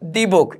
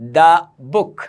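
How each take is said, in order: First: The word 'the' is said as 'thee'. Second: The word 'the' is said as 'thuh'. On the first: The speaker calls it wrong. "Not দি book" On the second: The speaker calls it right. "It's দা book"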